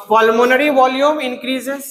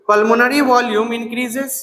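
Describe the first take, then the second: First: Slow, spaced words; slow dictation. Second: Slower repeat for notes; slow dictation. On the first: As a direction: dictate so they can write it. (धीरे-धीरे लिखवाना) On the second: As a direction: say it once more, slowly. (दोबारा धीरे से लिखवाना) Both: Shown as a demonstration.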